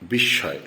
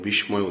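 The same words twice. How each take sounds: First: The s sound is doubled and held longer. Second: The s sound is short and single. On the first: The speaker calls it right. "স্বর দুইবার উচ্চারণ হবে" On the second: The speaker calls it wrong. "প্রচলিত বিস্ময় উচ্চারণ করে থাকি, যেটা ভুল"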